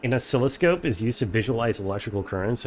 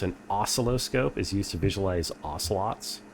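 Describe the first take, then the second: First: "oscilloscope" said o-SCIL-lo-scope, stress on the second syllable. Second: "oscilloscope" said OS-ci-lo-scope, stress on the first syllable. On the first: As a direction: put the weight on SCIL in "oscilloscope". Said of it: "Is it supposed to be oscilloscope?". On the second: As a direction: lean on the opening OS of "oscilloscope". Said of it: "stress on the first syllable". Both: Shown as a demonstration.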